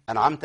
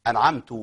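First: «أنعمت» ending in -ta; correct final vowel. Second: «أنعمت» ending in a wrong -tu; changed final vowel. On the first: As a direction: end «أنعمت» on fatha, as an-amta. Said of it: "فالحركة هنا". («أنعمت» بفتح التاء) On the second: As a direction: end «أنعمت» on damma, as an-amtu. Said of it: "تغيير الإيه؟". («أنعمت» بضم التاء) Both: Shown as a demonstration.

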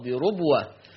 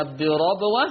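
First: بربوة as "birubwah"; rounded "ru" inside بربوة; damma on ra. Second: بربوة as "birabwah"; fatha on ra. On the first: Teacher recaps Warsh's reading, بربوة with damma. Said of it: "بضم الراء". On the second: Teacher recaps the word, بربوة with fatha. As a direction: open "ra" inside بربوة. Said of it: "حفص عن عاصم يقرأ بفتح الراء". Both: Shown as a demonstration.

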